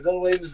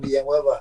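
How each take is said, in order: First: The name has an Americanized pronunciation. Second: The name has its traditional home pronunciation. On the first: This is the common form outside the family's home area. "You'll see it more Americanized" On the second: This is how people say it back home. "That's how they say it back home"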